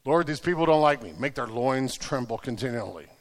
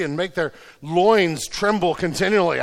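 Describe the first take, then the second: First: Low, softened prayer, dropping away; understated imitation of someone praying; deadpan mock prayer. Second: Said in the usual way. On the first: Mock-prays the uncomfortable verse.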